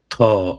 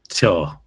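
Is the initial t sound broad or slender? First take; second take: broad; slender. First: The first consonant is a broad, velarized t. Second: The first consonant is a slender, palatalized t. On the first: The speaker calls it right. "it's a broad T rather than a slender T" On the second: The speaker calls it wrong. "rather than a slender T"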